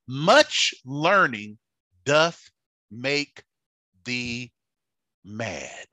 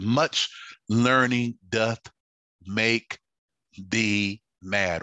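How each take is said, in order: First: Festus's loud cry, fading. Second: Said in the usual way. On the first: Acted. Festus to Paul, loud then fading. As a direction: shout it, then let it die away. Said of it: "And he said". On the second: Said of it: "he said".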